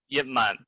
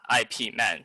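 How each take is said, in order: First: The first part is one syllable, like 'yip'. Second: The first part is spelled out as letters. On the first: The speaker calls it right. "his name is pronounced as Yip Man" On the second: The speaker calls it wrong. "but not I P Man"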